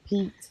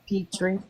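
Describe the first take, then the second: First: The name is said with one syllable. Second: The name is said with two syllables. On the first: This is how people say it locally. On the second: This is how others say the name.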